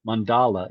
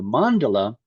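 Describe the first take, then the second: First: "mandala" stressed on the middle syllable, mun-DAH-luh; alternate pronunciation. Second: "mandala" stressed on the first syllable, MAHN-duh-luh. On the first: Lecturer offering the class another option, "mandala" stressed mun-DAH-luh. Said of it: "It's also pronounced". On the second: Lecturer introducing the term to the class, "mandala" stressed MAHN-duh-luh. Shows two accepted pronunciations of mandala. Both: Shown as a demonstration.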